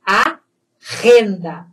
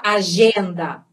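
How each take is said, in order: First: "A renda" with the G as a strong throat H; throaty Spanish G. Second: "agenda" with a soft zh sound for the G; wrong Portuguese G. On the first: Teacher shows the correct agenda, throaty "A renda". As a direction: rasp the middle consonant of "A renda", slowly. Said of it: "é som de R". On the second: Teacher shows what not to say, zh in "agenda". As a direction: say "agenda" the Brazilian way, G as zh. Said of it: "eu não posso falar". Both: Shown as a demonstration.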